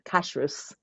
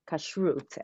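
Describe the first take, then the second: First: It is said with the American pronunciation. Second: It is said with the Hebrew pronunciation. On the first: "but in America you would say" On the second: "Kashrut is the Hebrew word, kashrut actually"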